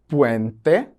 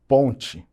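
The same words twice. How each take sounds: First: "puente" in Spanish, set apart and lifted at the end; Spanish "puente" with a clear final e; Spanish word demo. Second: Said in the usual way. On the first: Shown as a demonstration. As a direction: pronounce "puente" carefully the Spanish way. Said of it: "qual palavra tá em espanhol". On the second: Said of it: "qual palavra tá em português".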